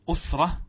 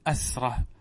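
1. أول صوت علة هو u، كما في usra. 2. أول صوت علة هو a، كما في asra. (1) "أما بالضم أسرة" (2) "ويجوز فتح الهمزة"

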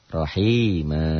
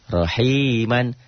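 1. Kata ini berakhir dengan vokal a panjang. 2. Kata ini berakhir dengan bunyi n.

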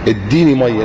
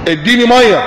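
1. بتتقال بهدوء، كطلب مهذب. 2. بتتقال بحدة، كأمر صريح. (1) "طلب" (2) "امر مش طلب"

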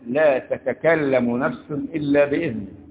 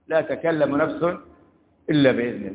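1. يبدأ الفعل بتاءين. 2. يبدأ الفعل بتاء واحدة. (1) "تكلم بتاء واحدة أساس الكلمة" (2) "لتقريب المعنى عشان يوصلك بسرعة لا تكلم"

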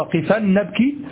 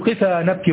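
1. تنتهي الكلمة الأولى بصوت النون. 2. تنتهي الكلمة الأولى بألف مد. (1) "وأنت قصدك قفا نبكي" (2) "تقول قفا نبكي"

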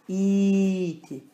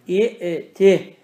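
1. İlk ünlü, hemze olmadan uzun uzar. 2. Hemze, ilk ünlüden sonra kelimeyi böler. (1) "İti okuman vaciptir" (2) "Aslı i'ti"

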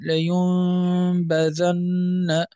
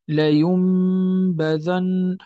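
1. تبقى الشفتان متباعدتين قليلًا أثناء الصوت الأنفي. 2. تنطبق الشفتان تمامًا عند الصوت الأنفي m. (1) "بالفرجة، وهو عدم إطباق الميم لكن إخراج الغنة" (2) "وهو ما يسمى بالإطباق"

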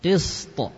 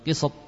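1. S mengalir lancar dan t di akhir memantul. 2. Bunyi s terpotong, tidak mengalir. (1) "Sinnya tetap mengalir saja. Qist, baru to-nya yang memantul" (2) "Bukan qist"

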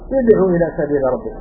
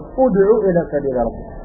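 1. الحركة الأولى هي 'i'. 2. الحركة الأولى هي 'u'. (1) "ولا تقول له" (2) "تقول ... لان ضمة ثالثه أصلية لازمة"

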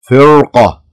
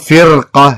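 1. صوت الراء ثقيل ومفخّم. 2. صوت الراء خفيف ورقيق. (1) "لا فرقة" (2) "مو فرقة"

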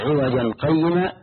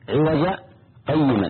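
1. الكلمتان متصلتان دون سكتة. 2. توجد سكتة قصيرة بين الكلمتين. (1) "فلو وصل" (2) "سكتة للقارئ لمن يقرأ أن يقف"

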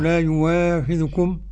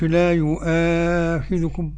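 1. صوت الواو يأتي بعد المقطع الأول. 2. الهمزة تأتي بعد المقطع الأول. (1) "أبدل الهمزة واو" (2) "مش لا يؤاخذكم"

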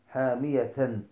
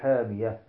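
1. النهاية متحركة، من غير هاء ساكنة. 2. تنتهي الكلمة بصوت الهاء الساكنة. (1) "لا نقول حامية" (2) "بل نقول حامية"

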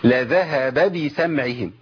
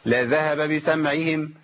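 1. كل باء لها حركة واضحة الشكل. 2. الحركتان على الباءين مبهمتان.

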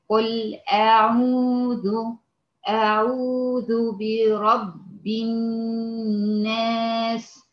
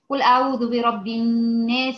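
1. تُتلى ببطء وتمهل. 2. تُتلى بسرعة لكن بوضوح. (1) "هقرا بالتحقيق" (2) "هقرا بحدر"

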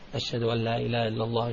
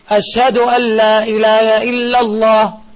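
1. Die Phrase wird leise gesagt. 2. Die Phrase wird laut gesagt. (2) "Dann sagst du laut"

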